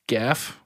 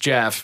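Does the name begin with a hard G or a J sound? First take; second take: hard G; J sound. First: The name begins with a hard G sound. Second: The name begins with a J sound. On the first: "It's a hard G. It's goat or Gaelic" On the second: "way funnier to just call the mongoose Jeff"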